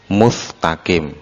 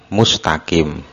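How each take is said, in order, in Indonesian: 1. Konsonan setelah 'mu' itu bunyi f. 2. Konsonan setelah 'mu' itu bunyi s. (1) "tidak mengucapkan sin tetapi mengucapkan fa" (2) "misalkan mengucapkan mustaqim"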